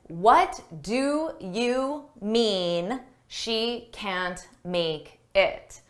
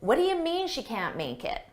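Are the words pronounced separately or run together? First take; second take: separately; run together. First: Each word is pronounced clearly and separately. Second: The words run together with reduced sounds. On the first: "I didn't say it like that" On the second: "This is called connected speech"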